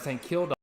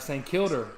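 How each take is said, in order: First: The name ends with a strong open A. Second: The name ends with an R-colored sound. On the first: "It'd be like a strong ass A" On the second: "It'd be like a R"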